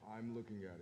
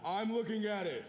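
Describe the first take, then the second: First: It is said at a normal, quiet volume. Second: It is said very loudly.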